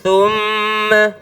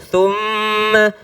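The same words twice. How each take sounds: The two takes are said the same way.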